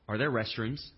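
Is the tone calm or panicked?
calm. It is said in a calm, even tone.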